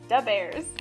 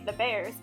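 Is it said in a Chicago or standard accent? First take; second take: Chicago; standard. First: It has a Chicago urban pronunciation. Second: It has a standard American pronunciation. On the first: The speaker calls it right. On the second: The speaker calls it wrong. "make sure you don't say"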